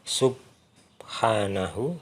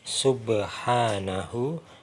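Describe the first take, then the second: First: The b is held without a bounce. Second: The b is released with a bounce. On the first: The speaker calls it wrong. "Bukan subhanahu" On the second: The speaker calls it right. "tapi subhanahu"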